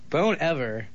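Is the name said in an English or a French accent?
English. The name is said in a plain English way. "The guy whose name we refuse to say correctly"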